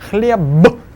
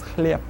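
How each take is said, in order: First: The final consonant is voiced. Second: The final consonant is voiceless. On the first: "The word хлеб" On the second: "will actually be pronounced as хлеб"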